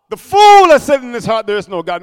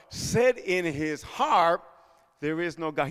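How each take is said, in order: First: 'The fool has said in his heart' belted out much louder, then 'There is no God' dropping back; loud proclamation. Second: Drawn-out, softer reading of 'Said in his heart, there is no God'; hushed and slow. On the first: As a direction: hammer 'fool' hard and loud. Proclaims the verse loudly. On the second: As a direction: let 'there is no God' sink away to almost nothing, very slowly. Reads the verse softly, drawn out. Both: Acted.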